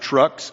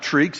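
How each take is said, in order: First: The name has a short uh vowel. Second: The name has a long ee vowel. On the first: "it is not Trux" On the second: "My name is not Treex"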